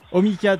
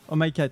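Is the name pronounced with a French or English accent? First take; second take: French; English. First: The name is pronounced the French way. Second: The name is pronounced the English way. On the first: The speaker calls it wrong. "il refait la faute" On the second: The speaker calls it right. "En anglais"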